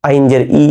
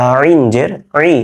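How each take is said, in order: First: "আইন" as an ordinary open vowel, no throat squeeze; "আইন জের ই" without the throaty Arabic sound; wrong plain ayn. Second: "আইন" and "ই" squeezed from the throat; drawn-out pharyngeal "আইন"; correct throaty ayn. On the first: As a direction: show the error "ই" as a simple Bengali i. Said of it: "তাহলে ভুল হয়ে যাচ্ছে". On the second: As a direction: constrict the throat to start "আইন" and "ই". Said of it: "এটা ভুল করা যাবে না কিন্তু". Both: Shown as a demonstration.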